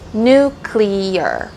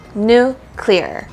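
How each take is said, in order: First: The word is said with three syllables. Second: The word is said with two syllables. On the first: The speaker calls it wrong. "a lot of people like to say" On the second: The speaker calls it right. "the correct way to say it is two syllables"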